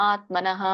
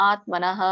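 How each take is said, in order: The two takes are said the same way.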